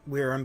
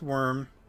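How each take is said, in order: First: The word sounds different from 'worm'. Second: The word sounds exactly like 'worm'. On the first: The speaker calls it wrong. "I grew up calling it Wyrm" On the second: The speaker calls it right. "I know it's pronounced worm"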